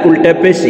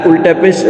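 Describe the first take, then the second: The two takes are said the same way.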